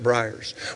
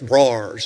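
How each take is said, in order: First: Briars is said with a standard pronunciation. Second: Briars is said with an Eastern Kentucky pronunciation. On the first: "not briars" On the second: "Where I come from is briars"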